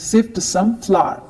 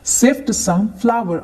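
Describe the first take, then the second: First: It is said in a British accent. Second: It is said in an American accent.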